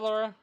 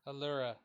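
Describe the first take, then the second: First: The name starts directly with an L sound. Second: The name starts with a short vowel before L. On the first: The speaker calls it wrong. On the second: The speaker calls it right.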